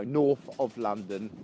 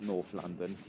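First: "north of London" with OF set apart; "of" said clearly between north and London; stress on OF. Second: Said in the usual way. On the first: Shown as a demonstration. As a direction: correct it, picking out the word "of" in "north of London". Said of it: "Not North London". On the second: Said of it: "No, north of London".

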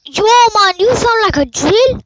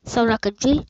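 First: Shouting high and loud; loud yelling. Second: Said in the usual way. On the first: Real, not acted. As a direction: yell it at your friend. Yelling at friend over call.

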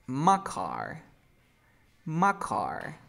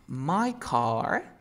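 First: "My" shortened to "ma"; reduced MY. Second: Said in the usual way. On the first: Shown as a demonstration. Teacher showing a student the shortcut, "My" reduced to "ma". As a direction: say "My car" lazily as "ma car". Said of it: "¿qué voy a decir?". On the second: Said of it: "en lugar de decir".

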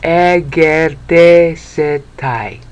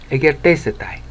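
First: Egertesetai said very slowly, syllable by syllable; Greek word. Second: Egertesetai run together smoothly; blended word. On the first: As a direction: sound out Egertesetai carefully. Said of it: "not good at pronouncing Greek". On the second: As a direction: say Egertesetai as one flowing word. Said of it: "E, ger, te, se, tai". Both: Shown as a demonstration.

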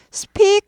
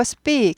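First: First speak high and loud with a puffed p; airy, breath-releasing p in speak; aspirated speak. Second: Second speak with a hard p, no puff; tense-p speak. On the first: Teacher showing what not to say, aspirated speak. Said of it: "speak 하지 않고". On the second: Teacher correcting the sound, tense-p speak. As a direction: tight Korean-style double p in speak. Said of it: "된 소리가 되죠". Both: Shown as a demonstration.

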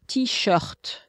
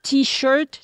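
First: "t-shirt" with French R, falling; French pronunciation. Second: "T-shirt" with English R, rising; English pronunciation. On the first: Contrasting the two languages for colleague, French "t-shirt". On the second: Contrasting the two languages for colleague, English "T-shirt". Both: Shown as a demonstration. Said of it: "French word that comes from English".

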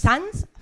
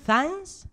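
First: "Sanz" with s at both ends, high and loud; high, loud querying "Sanz" with plain s sounds; questioning pronunciation attempt. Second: "Sanz" starting with an f-like th, high and rising; high querying "Sanz" with the first s lisped; muddled pronunciation attempt. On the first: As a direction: try "Sanz" as "sans", rising like a question. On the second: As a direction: try "Sanz" as "fans", like a question. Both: Shown as a demonstration. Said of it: "¿Cómo es?".

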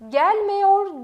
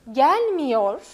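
First: "Gelmiyor" as "gelmeyor", slow; wrong pronunciation. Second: "gelmiyor" said with a narrow i; correct pronunciation. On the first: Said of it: "Gelmiyor değil". ("Gelmiyor" yanlış, "gelmeyor" diye yavaşça) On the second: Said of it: "Gelmiyor değil, gelmiyor". ("gelmiyor" doğru telaffuz, dar i ile) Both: Shown as a demonstration.

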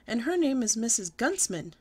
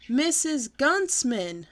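First: Said in the usual way. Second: Slow, louder, higher holler of the name. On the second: Acted. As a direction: shout it so mother finally hears. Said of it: "I hollered".

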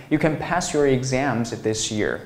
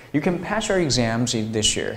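First: Said in the usual way. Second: "pass your" joined as "pa-shur"; linked reading. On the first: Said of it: "如果你要读成". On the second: Shown as a demonstration. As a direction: blend "this year" into "thi-shear". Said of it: "这样读会更洋腔洋调一点".

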